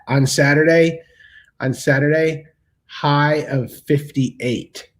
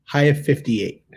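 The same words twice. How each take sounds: First: Slow, savoring each word of the forecast; drawn out. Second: Said in the usual way. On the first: Shown as a demonstration. Telling viewers the weekend forecast, slow and savoring. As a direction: stretch it out slowly for effect.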